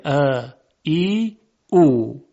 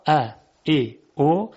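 First: "ا، ای، او" each drawn out slowly; long vowels. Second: "ا، ای، او" as brief separate vowels; short vowels. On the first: Teacher summing up long sounds, "ا، ای، او" sustained. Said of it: "صداهای بلند و کشیده". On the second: Teacher summing up short sounds, "ا، ای، او" unstretched. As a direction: keep "ا، ای، او" short, one by one. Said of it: "صداهای کوتاه". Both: Shown as a demonstration.

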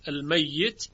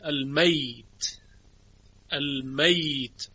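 First: المیت with a doubled ya, al-mayyit. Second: المیت said slowly as al-mayt, ya unvoweled; sukun on ya. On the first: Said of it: "یا تشدید داره". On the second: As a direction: draw out المیت as al-mayt, with no doubling. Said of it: "شعبه به اسکان یا خونده". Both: Shown as a demonstration.

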